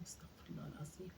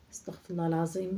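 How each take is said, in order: First: Istighfar whispered, استغفر الله العظيم almost silent; whispered prayer. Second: Said in the usual way. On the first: Acted. Old woman alone after the call, whispered استغفر الله العظيم.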